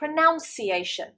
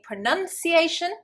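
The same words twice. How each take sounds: First: The second syllable sounds like nounce. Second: The second syllable sounds like nun. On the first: The speaker calls it wrong. "they get confused with the verb" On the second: The speaker calls it right. "Rather than saying pronunciation"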